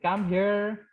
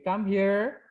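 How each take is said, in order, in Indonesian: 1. Diucapkan dengan nada menantang dan agresif. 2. Diucapkan dengan nada tersenyum dan ramah. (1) "mau ngajak gelut ya" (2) "with smiling but with a different intention"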